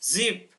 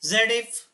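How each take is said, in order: First: It begins with a plain z sound. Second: It begins with the syllable 'zed'. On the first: The speaker calls it right. "मूल रूप में इसकी ध्वनि ज होती है" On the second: The speaker calls it wrong. "इसके नाम के अनुसार पढ़ने की कोशिश करें"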